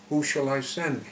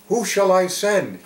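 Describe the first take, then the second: First: "Who shall I send" asked as an open question, raised pitch. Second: High, loud call for a volunteer. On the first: God giving us the chance to choose, asking "Who shall I send" questioningly. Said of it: "So God says it as a question". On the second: God to the world, seeking a prophet, calling out. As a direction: ring it out as a summons. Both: Acted.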